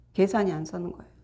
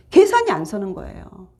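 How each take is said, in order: First: 계산이 안 서는 거예요 repeated much softer, dropping away; quiet echo. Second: Said in the usual way. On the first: Shown as a demonstration. Preacher echoing his point to the congregation, soft repeat. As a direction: let the repeat fall to a quiet murmur. Repeats line, then softly.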